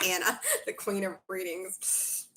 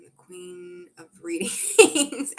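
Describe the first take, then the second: First: Repeated through a real laugh. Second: Slow, loud, stretched royal announcement; grand proclamation. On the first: Real, not acted. Reader laughs while thanking Anna, laughing. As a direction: giggle the title back at Anna. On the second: Pretend. Reader proclaims a viewer's praise loudly and slowly. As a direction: crown herself with the words. Reads viewer's flattering comment.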